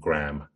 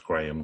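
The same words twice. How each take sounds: First: The name is said the American way. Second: The name is said the British way.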